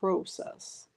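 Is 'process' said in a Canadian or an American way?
Canadian. It is said with a Canadian pronunciation. "They like to say process"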